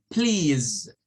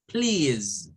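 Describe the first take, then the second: No difference in how they are said.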